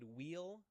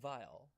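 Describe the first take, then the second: First: The name begins with a W sound. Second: The name begins with a V sound. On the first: "As a kid, I said wheel" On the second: "the W should be pronounced like a V"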